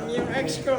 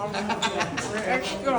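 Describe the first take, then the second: First: Said in the usual way. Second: "Yung ex ko" stretched very slowly, rising at the end; slow drawn-out. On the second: Shown as a demonstration. Repeating it slowly to the director for a laugh, drawn out. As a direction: drag out "Yung ex ko" slowly for a wistful effect.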